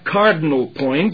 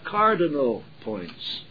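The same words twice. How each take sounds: First: The vowels of cardinal are dropped, clipping it. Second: Every vowel of cardinal is fully sounded. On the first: The speaker calls it wrong. "C-A-R-D apostrophe N apostrophe L" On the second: The speaker calls it right. "but you have cardinal points"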